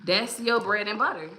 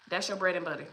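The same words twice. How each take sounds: First: Said in the usual way. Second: Quiet emphatic repeat. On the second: Real, not acted. Host repeating the key point to viewers, quietly. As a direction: drop the volume to let it sink in.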